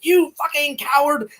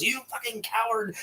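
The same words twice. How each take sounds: First: High-pitched mock accusation; excited retelling. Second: Hushed, higher-pitched mock accusation; kept down. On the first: Spider accuses Bert in retold film, excited outburst. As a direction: hurl the insult in an excited imitation. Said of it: "I get really excited sometimes". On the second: Repeating Spider's insult after being shushed, kept down. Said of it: "I need to keep it down".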